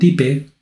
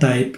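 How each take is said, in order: First: It is read as Spanish letters, like 'tee-peh'. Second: It is said the English way, like 'taip'. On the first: The speaker calls it wrong. "no type" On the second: The speaker calls it right. "se pronuncia type"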